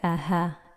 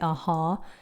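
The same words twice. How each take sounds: First: The h sound is light and weakly breathed. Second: The h sound is heavy and strongly breathed. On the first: The speaker calls it right. "Our ha in Arabic is not heavy like that" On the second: The speaker calls it wrong. "We don't say aha"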